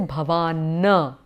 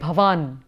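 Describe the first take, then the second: First: The word ends with an added short a vowel. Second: The word ends on a bare consonant. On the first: The speaker calls it wrong. "you will not say" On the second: The speaker calls it right. "the moment you see a halant"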